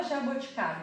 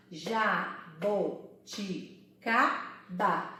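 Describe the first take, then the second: First: Said in the usual way. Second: JABOTICABA very slow, split into ja, bo, ti, ca, ba; syllable by syllable. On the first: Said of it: "A palavra jaboticaba". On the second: Shown as a demonstration. Teacher demonstrating five syllables, syllable by syllable. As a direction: sound out JABOTICABA lower, a pause after every syllable. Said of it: "vamos lá".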